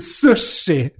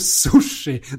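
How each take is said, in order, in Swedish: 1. Den första vokalen är ett svenskt u-ljud. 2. Den första vokalen är ett engelskt oo-ljud. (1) "Det heter ju sushi!" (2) "som man gör på engelska"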